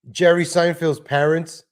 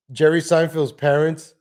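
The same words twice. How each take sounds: The two takes are said the same way.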